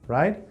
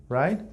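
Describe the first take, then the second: No difference in how they are said.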